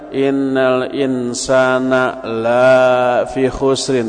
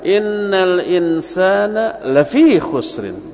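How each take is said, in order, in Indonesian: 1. Vokal pada 'la' dibaca panjang. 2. Vokal pada 'la' dibaca pendek. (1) "Kalau la-nya panjang, sesungguhnya manusia itu tidak rugi" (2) "Jangan panjang, bacalah pendek"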